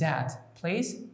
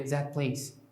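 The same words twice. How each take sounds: First: Each word's last sound is said in full. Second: The last sound of 'that' changes to link. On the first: "written form is" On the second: "natural speed will be"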